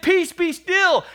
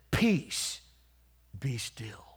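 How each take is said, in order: First: High, loud, slow rebuke; commanding shout. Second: Gentle calming command. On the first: Jesus rebuking the wind, loud commanding cry. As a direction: command the storm at full preaching force. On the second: Jesus calming the storm, said softly. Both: Retold or imitated.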